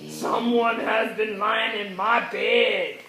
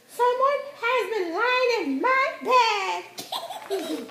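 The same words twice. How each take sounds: First: It is said in a deep, growling voice. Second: It is said in a medium-pitched voice.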